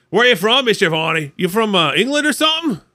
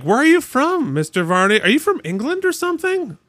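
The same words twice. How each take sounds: First: Put-on second take of the kids. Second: Mimicking curious kids. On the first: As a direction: redo the kids' question with more edge. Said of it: "Except it wasn't like". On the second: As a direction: play the kids quizzing their teacher. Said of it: "the kids were asking me".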